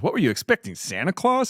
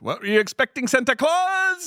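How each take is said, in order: First: The line is said in a natural, fluent way. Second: It imitates Pignon reading the line stiltedly, phonetically.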